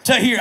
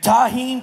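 First: Tahir said as ta-HEER with a clear r; landing on Tahir, stress on HEER, with a laugh; corrected name. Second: Tahim with an m at the end, unsure; stumbling over Tahim, saying it as ta-HEEM; mispronounced name. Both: Shown as a demonstration. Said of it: "how you say that?".

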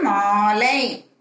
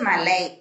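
First: மாலை with a long held "aa"; long vowel. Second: மலை with a short "a"; short vowel. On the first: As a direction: draw out the first vowel of மாலை. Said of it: "துணைக்கால் போட்டு". (மாலை நெடிலாக, நீட்டி) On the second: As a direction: keep the first vowel of மலை brief. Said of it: "அதுக்கு கூட துணைக்கால் போட்டு". (மலை குறிலாக, குறுக்கி) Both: Shown as a demonstration.

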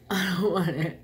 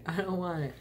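First: Loud, firm no; emphatic refusal. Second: Said in the usual way. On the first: Real, not acted. Refusing sauce, playful.

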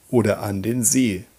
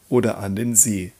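Both takes have the same delivery.

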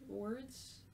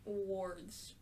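First: Words said as wurdz, rising, unsure. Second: Wards said as wordz, with the or vowel. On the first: Player testing Words as wurdz. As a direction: try Words with the er vowel of "word". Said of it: "Words or wards?". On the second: Player settling on the reading wards. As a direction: settle on wards, rhyming with "swords". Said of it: "I'll say". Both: Shown as a demonstration.

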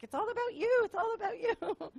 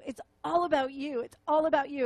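First: Much higher, light, airy repeated phrase; voicing all of them, much higher; high sing-song chorus. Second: Said in the usual way. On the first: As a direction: lift it high like a crowd of adoring voices. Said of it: "all of them are like". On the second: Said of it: "How do I serve you?".

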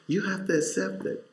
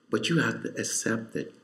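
First: Higher, soft repetition with rising urgency; raised soft appeal; pleading. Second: Hushed plea to accept it; quiet. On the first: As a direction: lift it up as a plea. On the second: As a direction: say it softly and firmly. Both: Real, not acted.

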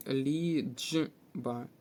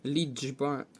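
First: "ліджба" drawn out in three pieces, лі-дж-ба; broken-up sound demo. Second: Said in the usual way. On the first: Shown as a demonstration. Teacher showing дж replaces ч, "ліджба" slowly in separated sounds. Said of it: "Тут буде замість «ч» звук «дж»". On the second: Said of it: "тут буде".

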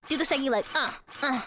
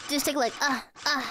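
Both takes have the same delivery.

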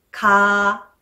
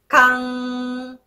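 First: Said in the usual way. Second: かん keeping the open vowel, then a long ng; held final ng. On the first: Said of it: "かの発音したら". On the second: Shown as a demonstration. Teacher repeats for learners, か held into ng. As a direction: sustain か and close it into a humming ng. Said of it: "そのまま維持しながら".

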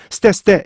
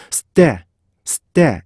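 First: 스테 run together quickly with no gap; unseparated 스테; without separation. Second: 스테 with a held stop between 스 and 테; longer, split 스테; separated with a stop. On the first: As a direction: rush 스테 as plain Korean syllables. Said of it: "이렇게 하시면 안 돼요". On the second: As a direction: lengthen 스, pause, then release 테. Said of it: "이렇게 분리하셔야지". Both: Shown as a demonstration.

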